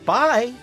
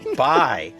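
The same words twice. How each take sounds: First: It is said in a warm, friendly tone. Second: It is said in a curt, unfriendly tone. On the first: The speaker calls it right. "that's nice" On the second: The speaker calls it wrong. "that's not nice"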